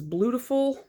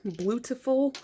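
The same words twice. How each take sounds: First: Puzzled reading. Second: Said in the usual way. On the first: Real, not acted. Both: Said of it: "what is this?".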